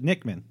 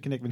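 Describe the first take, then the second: First: "Nickman" with a silent K, starting on N; said as spelled. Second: "Knickman" with the K voiced, kuh-NIK-man; K sounded. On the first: Host showing the mayor's spelling, said as spelled. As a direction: say "Nickman" as two syllables, NIK-man. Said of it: "He spells it Nickman". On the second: Host showing how the mayor says his name, K sounded. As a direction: say "Knickman" in three syllables, opening on a hard K. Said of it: "pronounces it Knickman". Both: Shown as a demonstration.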